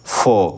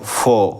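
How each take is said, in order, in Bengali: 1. শেষের r ধ্বনিটি নীরব থাকে। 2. শেষের r ধ্বনিটি নীরব থাকে।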